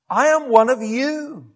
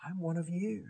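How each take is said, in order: First: "I am one of you" slow, high and loud; emphatic declaration. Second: "I'm one of you" dropped to a soft, quiet voice; hushed plea. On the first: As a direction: declare "I am one of you" loudly, stretching each word. Acted plea of Paul to crowd. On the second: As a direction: say "I'm one of you" softly, rising slightly at the end. Same plea repeated after pause. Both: Acted.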